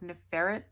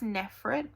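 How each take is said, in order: First: The name is said with three syllables. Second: The name is said with two syllables. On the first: The speaker calls it wrong. "which I know is not accurate" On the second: The speaker calls it right. "I think it's Nefret"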